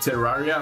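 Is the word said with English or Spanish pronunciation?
English. It is said with soft English r sounds. "I still don't know how to pronounce that in English"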